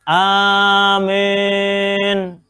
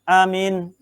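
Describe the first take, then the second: First: The long first vowel leans toward e. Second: The first vowel is a short a. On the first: "baca amin tapi dengan imalah" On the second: "bil qasri. ... Pendek, boleh"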